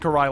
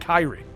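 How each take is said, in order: First: The name is said as Karai. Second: The name is said as Kairi. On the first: The speaker calls it right. "I do know how to pronounce it" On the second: The speaker calls it wrong. "I always want to say Kairi"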